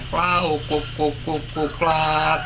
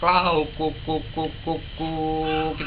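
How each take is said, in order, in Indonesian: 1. Panggilan itu berakhir dengan bunyi klik tajam. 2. Ujung panggilannya turun pelan ke bawah. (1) "itu noklak, Pak. Itu kurang bagus" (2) "yang jatuhnya ke bawah ke ndelosor"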